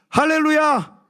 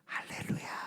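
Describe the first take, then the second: First: It is said loudly and strongly. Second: It is said softly and weakly.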